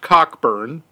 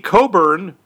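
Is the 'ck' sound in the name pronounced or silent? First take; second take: pronounced; silent. First: The name is said with a clear 'k' sound. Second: The name is said without a 'k' sound. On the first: This is how the name is said in the film. "but it's pronounced Cockburn" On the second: This is the usual way the name is said. "It should be Coburn"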